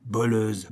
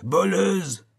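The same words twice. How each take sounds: First: The first voleuse, held back at near-normal pitch; first accusing cry. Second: Voleuse flung out much higher and louder; the accusation breaks into a shriek; shrieking cry. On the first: (voleuse, encore contenu) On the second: (voleuse hurlé, beaucoup plus aigu) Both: A narrator's reading. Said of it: "cria-t-il".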